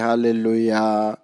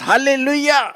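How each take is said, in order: First: It is said quietly and slowly, without energy. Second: It is said loudly and with excited energy. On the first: The speaker calls it wrong. "ऐसे नहीं बोलते hallelujah बड़ धीरे से" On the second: The speaker calls it right. "खुशी के साथ, आनंद के साथ"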